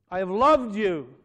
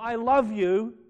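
First: "loved" leaned on with a falling tune; stress on loved. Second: "love" said with a questioning rise; wrong tense. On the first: Preacher to congregation, firm falling stress on loved. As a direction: press down on "loved" in "I have loved you". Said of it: "Now notice the words". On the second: Preacher to congregation, rising questioning "love". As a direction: say "I love you" as the rejected reading. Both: Shown as a demonstration.

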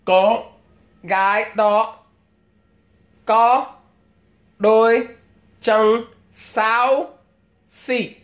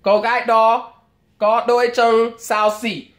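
First: Giọng thợ làm móng nói tiếng Việt; pedicure salon Vietnamese. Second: Same Vietnamese line run together quickly and higher; nói nhanh tiếng Việt tiệm móng; pedicure salon Vietnamese. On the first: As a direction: mimic a nail tech gossiping in Vietnamese. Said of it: "this is what you might hear". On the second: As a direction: rattle it off as one smooth salon remark. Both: Retold or imitated.

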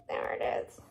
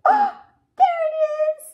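First: Whispered happy find. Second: High, loud happy find; excited discovery. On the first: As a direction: whisper it like a secret. Found the X again. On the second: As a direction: point it out with high delight. Found the X. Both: Real, not acted.

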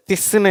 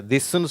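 First: திஸ்ன்னு with an unvoiced t-like th, "thissunnu"; wrong voiceless th. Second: திஸ்ன்னு with a soft voiced dh, "dhissunnu"; correct voiced dh. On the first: Teacher showing what nobody says, voiceless th. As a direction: start திஸ்ன்னு on a hard dental t. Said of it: "இதை திஸ்ன்னு யாரும் சொல்றதில்ல". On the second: Teacher showing what we do say, voiced dh. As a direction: voice the first sound of திஸ்ன்னு as dh. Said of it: "திஸ்ன்னு சொல்றோம்". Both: Shown as a demonstration.

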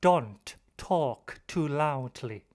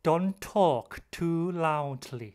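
First: "Don't talk" split, both t sounds said with a break; unlinked words. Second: "Don't talk" joined with just one t; linked t. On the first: Teacher showing what not to say, "Don't talk" separated. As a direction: release the t of "Don't" before starting "talk". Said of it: "เราจะไม่พูดว่า". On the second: Teacher showing the better way, "Don't talk" linked with one t. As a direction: run "Don't" straight into "talk" on a shared t. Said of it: "แต่เราจะพูดว่า". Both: Shown as a demonstration.

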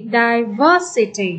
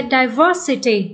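First: "Diversity" slowed down, weight on -VER-; stress on second syllable. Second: Said in the usual way. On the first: Shown as a demonstration. Teacher repeating the word for students, slow stress on second syllable. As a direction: stretch "Diversity", leaning on VER. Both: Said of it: "Nhấn âm".

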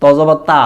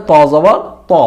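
First: "তা" with a long open aa; wrong Bangla reading. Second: "ত" with a full rounded o-like vowel; correct Arabic ta. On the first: Teacher showing what Bangla spelling gives, mispronounced. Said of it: "বাংলাতে করতে যাই". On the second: Teacher showing the heavy Arabic letter with zabar, correct pronunciation. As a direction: round "ত", keep it from becoming "তা". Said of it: "জবর উচ্চারণ যদি আমরা". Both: Shown as a demonstration.

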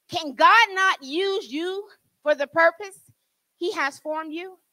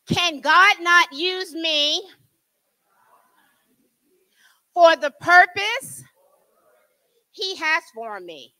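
First: Said in the usual way. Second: Slow and drawn out, leading the room; slow call to repeat. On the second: Shown as a demonstration. Preacher leading the church in a slow repeat-after-me. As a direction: lay it out slowly so they can follow. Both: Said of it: "Repeat after me".

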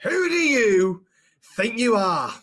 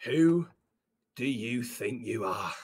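First: Raised, stretched-out scolding; angry reprimand. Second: Slow, low, quiet menace; menacing reprimand. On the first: Boss repeats the dressing down. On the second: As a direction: draw it out low with long pauses. Boss dressing down employee. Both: Acted.

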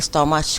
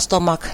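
First: Stomach ending in a ch sound, "stomatch"; spelling-based mispronunciation. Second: Stomach ending in a hard k, "stomak"; correct pronunciation. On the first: Teacher shows the error to avoid, stomach as "stomatch". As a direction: misread stomach with ch as in church. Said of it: "ไม่ stomach ค่ะ". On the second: Teacher stresses the proper reading, stomach as "stomak". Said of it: "อ่านว่า stomach นะคะ ไม่ stomach ค่ะ". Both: Shown as a demonstration.

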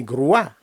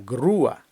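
First: Груа as one syllable, stress on а; unsplit diphthong. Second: Груа in two syllables, stress on у, falling; split diphthong. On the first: Teacher rejects this reading, diphthong merged. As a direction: glide through у into loud а in груа. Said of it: "не груа". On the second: Teacher corrects the reading, vowels split. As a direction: lean on у in груа, separate а. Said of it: "дифтонг розбивається на два окремих". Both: Shown as a demonstration.

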